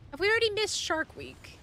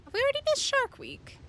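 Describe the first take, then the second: First: A lively, slightly raised ask about Shark Week; raised teasing ask; playful question. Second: Much higher, louder mock-panicked ask; high squeaky mock panic; squeaky high question. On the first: Pretend. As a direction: tease the question out. Repeats the question, pitch rising. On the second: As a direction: squeak it out like a cartoon.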